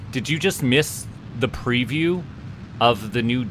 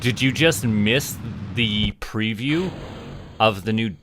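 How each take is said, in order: Both takes have the same delivery.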